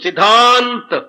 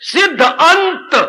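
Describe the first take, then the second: First: It is said as one joined word. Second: It is said as two separate words. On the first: "संधि में बोलते हैं तो सिद्धांत" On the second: "वरस शब्द सिद्धांत नहीं है, सिद्ध अंत"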